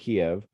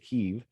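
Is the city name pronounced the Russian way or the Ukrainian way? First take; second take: Russian; Ukrainian. First: The name is pronounced the Russian way. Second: The name is pronounced the Ukrainian way. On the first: "rather than" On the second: "to use more Ukrainian terms these days"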